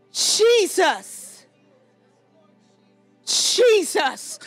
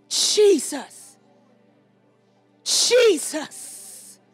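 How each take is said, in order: Both takes have the same delivery.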